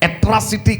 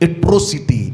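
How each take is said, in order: First: The second vowel sounds like 'ah'. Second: The second vowel sounds like 'oh'. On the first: The speaker calls it wrong. "ఎట్రాసిటీ కాదు" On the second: The speaker calls it right.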